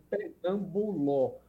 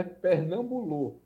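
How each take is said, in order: First: Pernamboló with the last vowel an open o; open final ó. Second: Pernambolô slowly, with the last vowel a closed o; careful Pernambolô with rounded final ô. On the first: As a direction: say Pernamboló carefully, as written without the circumflex. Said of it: "Então escreve Pernamboló". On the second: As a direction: say Pernambolô drawn out for listeners, ending in closed ô. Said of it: "é com acento circunflexo". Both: Shown as a demonstration.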